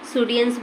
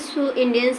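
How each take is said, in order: First: The two words are run together. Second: The two words are said separately. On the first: "सुडियंस भी ऐसे बोला जाता है" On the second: "अब ये जो है देखिए सो इंडियंस है"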